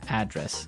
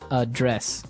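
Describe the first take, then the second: First: The stress is on the first syllable. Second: The stress is on the second syllable.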